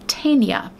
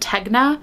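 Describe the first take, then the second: First: The middle has a soft ny sound. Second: The middle has a hard g sound. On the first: The speaker calls it right. "but it is pronounced Tanya" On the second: The speaker calls it wrong. "I have said Tegna for however long"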